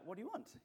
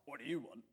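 First: It sounds warm and genuinely inviting. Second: It sounds curt and dismissive.

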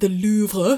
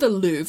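First: It is said in a put-on French accent. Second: It is said in a plain American accent.

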